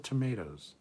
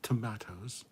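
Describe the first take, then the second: First: It is pronounced the non-British way. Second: It is pronounced the British way. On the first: The speaker calls it right. "It's also tomatoes" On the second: The speaker calls it wrong. "It's not tomatoes"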